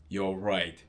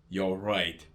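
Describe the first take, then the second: No difference in how they are said.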